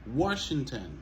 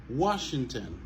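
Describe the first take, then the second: No difference in how they are said.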